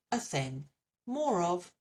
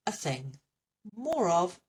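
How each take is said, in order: Both takes have the same delivery.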